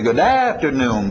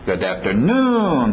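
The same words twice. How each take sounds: First: The strongest beat falls before the final syllable. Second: The strongest beat falls on the final syllable. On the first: The speaker calls it wrong. "A tendência vocês vão querer dizer good afternoon, param papam" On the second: The speaker calls it right. "papapapá, e batendo lá no finalzinho"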